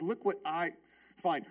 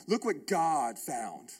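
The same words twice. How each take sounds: First: Said in the usual way. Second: Slow, deliberate Look what God found, weight on God; slow down and give God the credit; correcting to God. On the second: Retold or imitated. Pastor correcting himself to the congregation, slow stressed God.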